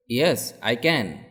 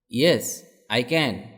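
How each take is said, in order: Both takes have the same delivery.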